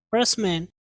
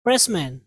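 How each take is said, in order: Both takes have the same delivery.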